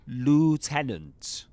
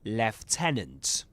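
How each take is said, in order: First: It is said with an American accent. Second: It is said with a British accent. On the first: "But in American English, it's lieutenant" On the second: "in British English, you will say lieutenant"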